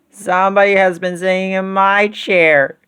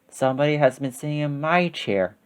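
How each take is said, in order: First: It is said in a wee little voice. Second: It is said in a middle-sized voice.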